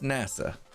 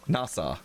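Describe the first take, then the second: First: It sounds like the space agency name. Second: It does not sound like the agency name. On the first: The speaker calls it wrong. "it sounds like they're saying NASA, like the space program" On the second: The speaker calls it right. "It's actually supposed to be pronounced Nassau"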